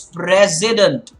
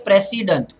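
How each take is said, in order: First: The middle consonant is a buzzing z sound. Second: The middle consonant is a hissing s sound. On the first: The speaker calls it right. "it's president" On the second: The speaker calls it wrong. "You cannot say president"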